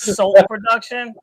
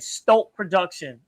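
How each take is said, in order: First: The name begins with a plain s sound. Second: The name begins with an st sound. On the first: The speaker calls it right. "it's Salt Production" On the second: The speaker calls it wrong. "I've been saying Stolt Production"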